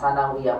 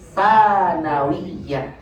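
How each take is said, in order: First: The vowel of the second syllable is long. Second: The vowel of the first syllable is long. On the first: The speaker calls it wrong. "nanya panjang sanawiyah" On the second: The speaker calls it right. "Yang betul sanawiyah. Sanya yang panjang"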